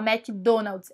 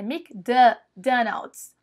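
First: The first syllable sounds like 'mac'. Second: The first syllable sounds like 'mic'. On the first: The speaker calls it wrong. "Você não fala McDonald's" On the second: The speaker calls it right. "é McDonald's... eles falam quase que um Mic"

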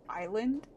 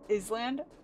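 First: The word is said the usual way. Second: The word is said letter by letter, as spelled. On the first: "when I read like island" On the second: "I read it as like Island"

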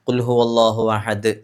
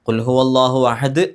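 The two takes are said the same way.

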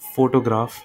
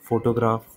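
First: The first syllable is stressed. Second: The first syllable is not stressed. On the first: The speaker calls it right. "Photograph word में हमने जो फो है उस पर" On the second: The speaker calls it wrong. "ये मैंने ठीक से प्रनाउंस नहीं किया"

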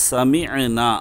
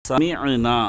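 Both takes have the same delivery.

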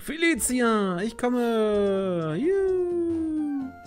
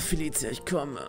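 First: It is said in a cheerful, innocent way. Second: It is said in a suggestive, moaning way.

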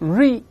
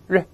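First: The vowel is long and drawn out. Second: The vowel is short and clipped. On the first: The speaker calls it wrong. "不要读re" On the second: The speaker calls it right. "又是前面发短音"

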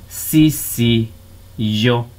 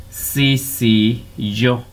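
Both takes have the same delivery.

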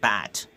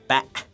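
First: The final t is fully released. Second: The final t is a glottal stop. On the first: "I don't say bat" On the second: "I say bat, Batman. So this is the example of glottal stop"

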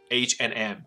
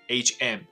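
First: An 'and' is said between the two letters. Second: The two letters run together with no 'and'. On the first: The speaker calls it right. "我们要念成H & M" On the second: The speaker calls it wrong. "我们不要把它念成HM"

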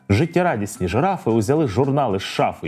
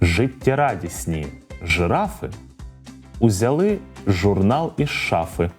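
First: The sentence is said at a fast pace. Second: The sentence is said at a slow pace. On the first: "Ну а тепер спробуємо швидко" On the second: "Повторюйте за мною спочатку повільно"

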